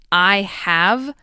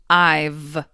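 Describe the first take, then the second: First: Both words are said in full. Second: The word 'have' shrinks to a 'v' sound. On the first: "you don't change I have" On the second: "It does change, but to I've"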